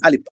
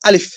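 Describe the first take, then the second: First: The word ends with a p sound. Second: The word ends with a plain f sound. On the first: The speaker calls it wrong. "অনেকে দেখবেন উম প বলে" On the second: The speaker calls it right. "একদম সহজভাবে ফ থাকবে লাস্টে।"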